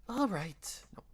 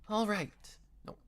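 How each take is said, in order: No difference in how they are said.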